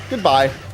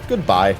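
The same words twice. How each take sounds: First: It is said in a normal voice. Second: It is said imitating the AOL voice.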